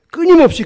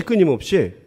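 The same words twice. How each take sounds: First: 끊임없이 shot up high and loud; first 끊임없이 cried out high, then dropped; stressed 끊임없이. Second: Said in the usual way. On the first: Real, not acted. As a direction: hit 끊임없이 hard and high. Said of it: "preacher's emphatic repetition". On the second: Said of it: "repeated quieter".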